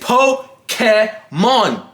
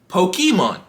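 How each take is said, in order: First: The middle syllable sounds like 'kay'. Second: The middle syllable sounds like 'kee'. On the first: This follows the original Japanese. The speaker calls it right. "It's Japanese. It's not key, it's K" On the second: This is the usual American way of saying it. The speaker calls it wrong. "the normal way any unassuming American would say Pokemon"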